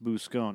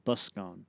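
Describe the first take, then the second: First: The first syllable does not sound like bus. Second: The first syllable sounds like bus. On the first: The speaker calls it wrong. "Actually, it's not pronounced that" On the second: The speaker calls it right. "as in busker"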